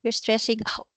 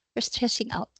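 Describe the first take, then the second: First: Said in the usual way. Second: Whispered, softer repeat of You're stressing out; hushed echo of the child. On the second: Retold or imitated. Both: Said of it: "Sabi nga nung anak".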